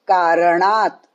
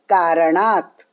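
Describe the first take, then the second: The two takes are said the same way.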